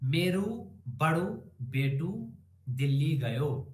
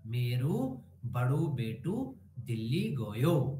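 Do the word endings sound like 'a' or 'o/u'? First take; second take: o/u; o/u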